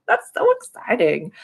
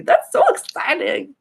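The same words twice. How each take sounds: First: Said in the usual way. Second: Very high, loud delight; high gushing excitement; excited squeal. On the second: Real, not acted. Excited reaction.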